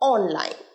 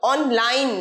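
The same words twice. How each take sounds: First: The stress is on the first syllable. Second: The stress is on the second syllable. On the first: The speaker calls it right. "অনের ওপরে স্ট্রেসটা পড়বে" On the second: The speaker calls it wrong. "Online নয়"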